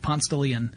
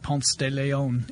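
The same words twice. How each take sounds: First: The name has its local regional pronunciation. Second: The name has its standard, Spanish-style pronunciation. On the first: The speaker calls it right. "It's Ponce de Leon" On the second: The speaker calls it wrong. "you do not call it Ponce de Leon"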